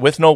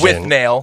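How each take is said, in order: First: The last syllable sounds like 'null'. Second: The last syllable sounds like 'nail'. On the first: This is how the film's own makers pronounce it. "But I think they pronounce it with Null" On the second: This is the Americanized pronunciation. "I think the Americanized version is with Nail"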